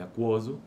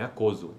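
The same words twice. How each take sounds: First: The k sound is followed by a w glide. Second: The k sound has no w glide after it. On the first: The speaker calls it right. "é aquoso, consoante complexa" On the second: The speaker calls it wrong. "não é aquoso"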